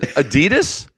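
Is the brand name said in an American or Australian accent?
American. It is said in an American accent. "I said, Adidas"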